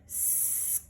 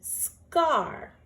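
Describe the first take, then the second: First: Whispered word. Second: Proud announcement. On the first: Teacher whispers the word while checking the letters. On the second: Teacher proudly announces the finished word to the class. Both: Shown as a demonstration. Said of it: "I'm gonna slide under my word to see".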